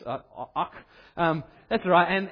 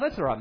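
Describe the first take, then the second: First: It is said in a Scottish accent. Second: It is said in the speaker's plain accent.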